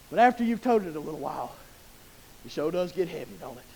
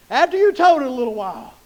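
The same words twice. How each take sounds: First: Quiet, heavy-hearted admission; subdued, weighty aside. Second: TOTED pushed out at full voice; emphatic restatement. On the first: Preacher admits to church the burden wears, subdued and soft. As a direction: drop low and soft after the rousing build. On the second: Preacher repeats the burden point to church, emphatic and full-voiced. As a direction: bring AFTER YOU'VE TOTED back up firmly. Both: Shown as a demonstration.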